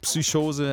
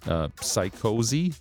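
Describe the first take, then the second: First: The word is said with a German pronunciation. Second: The word is said without a German pronunciation.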